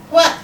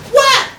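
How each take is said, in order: First: Said in the usual way. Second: Loud, high incredulous yelp; indignant disbelief. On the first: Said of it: "he inquired". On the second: Acted. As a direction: shoot the word up, loud and outraged. Indignant echo of his question.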